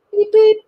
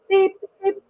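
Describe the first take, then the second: First: Cheerful engine beep. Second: Engine whistle beep. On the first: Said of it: "said Edward". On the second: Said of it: "said Henry". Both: Acted.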